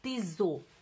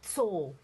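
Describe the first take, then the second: First: A vowel is inserted between the t and s. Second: The word starts with a tight ts cluster. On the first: The speaker calls it wrong. "não tiso" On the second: The speaker calls it right. "tss, tss, tso"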